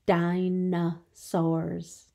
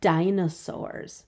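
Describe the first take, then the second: First: "Dinosaurs" slow, in three distinct beats; syllable by syllable. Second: Said in the usual way. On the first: Shown as a demonstration. Teacher showing three syllables, "Dinosaurs" slowly divided in three. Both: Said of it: "Three syllables".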